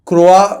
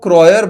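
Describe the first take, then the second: First: It is said like kroa, with a k-r start. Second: It is said like kroyer, ending in -yer. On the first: This is an easier form for others to say. "मैंने सोचा क्रोआ बोल देते हैं" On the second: This is the form that was finally adopted. "फिर यहाँ पे क्या हुआ कि वो क्रॉयर बन गया"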